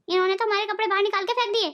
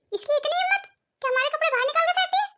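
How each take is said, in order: First: Said in the usual way. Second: Indignant, higher, incredulous; how dare she, spat out in outrage; outraged. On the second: Acted. Mother-in-law fumes about daughter-in-law throwing clothes, outraged.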